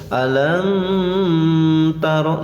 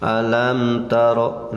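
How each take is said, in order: First: The m is pressed and held before continuing. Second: The m flows smoothly into the next sound. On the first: The speaker calls it wrong. "nah itu ditekan dulu, tidak boleh ya" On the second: The speaker calls it right. "biasa saja mengalir"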